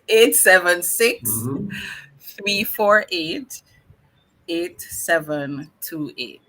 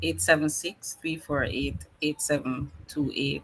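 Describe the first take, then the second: First: The number is said slowly. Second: The number is said fast.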